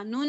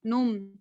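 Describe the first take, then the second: First: नून said "nun", short; plain n ending. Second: नुम closing on a held m; n turned to m. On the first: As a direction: end नून on a clear n. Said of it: "नून नहीं पढ़ा". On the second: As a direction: hum the last sound of नुम. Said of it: "नुम पढ़ा". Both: Shown as a demonstration.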